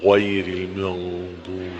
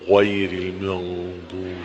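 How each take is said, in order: First: The sounds are rounded with heavy lip movement. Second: The sounds are rounded with heavy lip movement.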